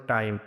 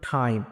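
First: টাইম with an unpuffed t; dry hard t starting টাইম; wrong T sound. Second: টাইম opened with a puffed t, like "thaim"; correct T sound. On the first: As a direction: say টাইম with no breath after t. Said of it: "ভুল উচ্চারণ যেটা হবে". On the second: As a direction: push breath out on the t of টাইম. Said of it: "সঠিক উচ্চারণটা আসবে". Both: Shown as a demonstration.

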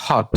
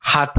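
First: "হট" with a rounded British o; British pronunciation. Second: "হাট" with an open ah for the o; American pronunciation. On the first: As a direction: demonstrate British "হট", vowel as অ. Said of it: "আর British উচ্চারণ হবে". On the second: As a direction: demonstrate American "হাট", vowel as আ. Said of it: "আমেরিকার উচ্চারণ হবে". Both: Shown as a demonstration.

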